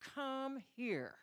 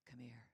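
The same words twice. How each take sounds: First: It is said in an angry, threatening tone. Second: It is said in a soft, seductive tone. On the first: The listener is in serious trouble. "It means death is following as soon as you get here" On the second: Romance awaits. "And that meant ecstasy awaited"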